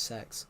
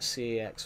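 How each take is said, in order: First: The name is one word starting with s. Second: The name is spelled out as two letters. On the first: "but it's actually pronounced Sex" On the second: "You can call it C X"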